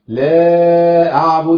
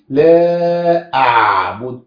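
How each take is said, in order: First: The ain sound is dropped completely. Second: The ain sound is strongly exaggerated. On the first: "أو يضيعها خالص" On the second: "ينفعش نبالغ فيها"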